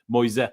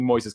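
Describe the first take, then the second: First: The final s sound is left silent. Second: The final s sound is pronounced. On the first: The speaker calls it right. "You're supposed to not pronounce the second S" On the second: The speaker calls it wrong.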